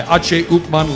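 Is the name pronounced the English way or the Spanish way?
Spanish. The name is said with Spanish sounds.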